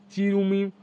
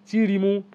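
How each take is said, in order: First: চিরুমি said with the vowels swapped, ru before mi; slip of the tongue. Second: চিরিমু said carefully, ri then mu; corrected name. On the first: Teacher listing Sikkim dances stumbles on the name, misspoken. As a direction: trips over চিরুমি, saying ru then mi. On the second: Teacher corrects herself on the Sikkim dance name, careful. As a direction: fixes it to চিরিমু after a pause. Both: Real, not acted.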